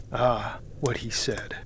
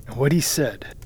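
First: Slow unvoiced whisper of dread; hushed horrified repeat. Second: Said in the usual way. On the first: A narrator's reading. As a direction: let the words sink in horror, barely voiced. Narrator recalls dread.

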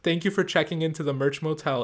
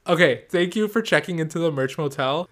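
First: Said in the usual way. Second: Brighter, louder sign-off; upbeat sign-off. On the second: Shown as a demonstration. Redoing the podcast sign-off, upbeat. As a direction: sell the catchphrase with energy. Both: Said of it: "Is that too lame to say?".

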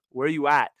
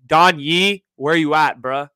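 First: Said in the usual way. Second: Loud mock call to an absent agent. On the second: Host calling out the agent who never called back, loudly. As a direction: shout it like he's across the room.

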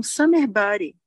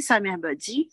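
First: Said in the usual way. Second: "sa mère badie", summer body with French vowels and end stress; English summer body read as French "sa mère badie"; French-style mispronunciation. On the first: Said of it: "eles estavam falando do corpo de verão". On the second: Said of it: "eles só falavam toda hora".

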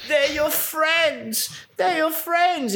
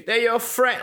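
First: Very high, very slow, hammed-up wooden delivery; exaggerated bad acting. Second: Stiff wooden line read, pitched up; bad acting. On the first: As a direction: overdo the terrible actor, drawing out every word. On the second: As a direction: say it like a bad actor, flat and forced. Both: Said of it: "like, the worst acting ever".

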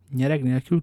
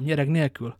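First: "Nyereg nélkül" lifted at the end as a question. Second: "nyereg nélkül" falling to a close; confirming. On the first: Aramis asks Porthos about the horse sale, "Nyereg nélkül" as rising question. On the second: Porthos answers Aramis, "nyereg nélkül" falling in confirmation. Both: A narrator's reading. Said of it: "kérdezte Aramis".

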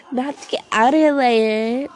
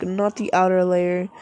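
First: Slow, louder, with "outer" stressed and a rising end; emphatic exclamation. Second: Said in the usual way. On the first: Shown as a demonstration. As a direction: read it as if it ends in an exclamation point, leaning on "outer". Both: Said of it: "with an exclamation point".

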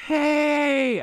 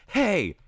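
First: Long, high called-out angry "Hey!"; drawn-out mock-angry shout across a field. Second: Short, high mock-angry "Hey!"; quick high call imitating an angry adult. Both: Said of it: "how to do an angry hey".

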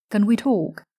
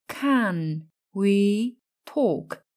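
First: Said in the usual way. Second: Very slow, drawn-out Can we talk; slow model. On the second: Shown as a demonstration. Teacher modelling Can we talk very slowly. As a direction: stretch every word of Can we talk. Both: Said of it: "Hoặc tương tự".

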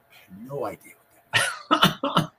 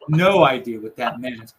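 First: Said in the usual way. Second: Laughing through the words. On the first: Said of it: "And I'm like". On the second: Real, not acted. Retelling the puzzling remark with a laugh. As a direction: chuckle as you repeat it.

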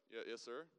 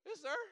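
First: Dropped, lower voice after a squeak; composed recovery. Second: Very high, loud panicked squeak; squeaky nervous voice. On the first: Driver correcting himself to the trooper, voice lowered. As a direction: pull the voice back down to sound cool. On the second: Startled driver answering a state trooper, nervously squeaky. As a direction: voice cracks up high, trying to answer politely. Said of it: "Your voice gets, like, way squeakier". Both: Retold or imitated.

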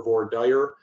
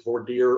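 First: "voir dire" with dire rhyming with fire; anglicized "voir dire", dire said "dyer". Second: "voir dire" with dire rhyming with deer; French-leaning "voir dire", dire said "deer". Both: Shown as a demonstration. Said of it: "do you pronounce it".

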